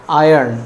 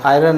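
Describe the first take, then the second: First: आयरन said as "aa-yan", with a clear y glide; correct pronunciation. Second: आयरन said wrongly as "aa-ran", dropping the y glide; wrong pronunciation. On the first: Teacher showing students the right way to say आयरन. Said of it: "उसका actual pronunciation आयरन होता है". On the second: Teacher demonstrating a common Hindi learner mistake with आयरन. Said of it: "आयरन नहीं होता है". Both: Shown as a demonstration.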